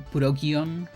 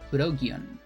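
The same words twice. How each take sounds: First: It is said the Japanese way, as Purokion. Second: It is said the Japanese way, as Purokion.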